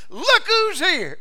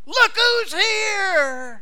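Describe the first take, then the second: First: High, loud, slow cry of joyful discovery; joyful greeting. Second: Very high, loud and very slow, stretching each word; ecstatic drawn-out cry. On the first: New believer greeting the Savior, joyful slow exclamation. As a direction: call out as if you spotted a long-lost friend. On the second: New believer greeting the Savior, drawn-out ecstatic shout. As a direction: cry it out long, in full delight. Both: Acted.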